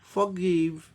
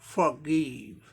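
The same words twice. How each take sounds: Both takes have the same delivery.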